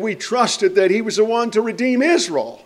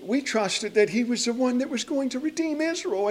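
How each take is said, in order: First: It is said in a confident, hopeful tone. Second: It is said in a despairing, hopeless tone.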